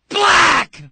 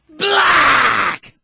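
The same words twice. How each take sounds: First: The word is said plainly without extra force. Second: The word is said forcefully with strong emphasis.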